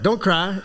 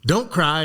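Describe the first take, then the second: First: Much higher echo with a rising tune, Don't cry turned incredulous; mock echo. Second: Curt order, a bit higher, falling at the end; sergeant's order. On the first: Recruit echoes the sergeant's order, incredulous rise. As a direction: repeat his words back in disbelief. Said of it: "And I'm like". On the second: Retold or imitated. Sergeant scolds recruit under the wire, curt. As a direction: snap it down at him. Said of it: "He goes".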